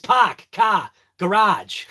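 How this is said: The r sounds are dropped, Boston style. "but normally it's"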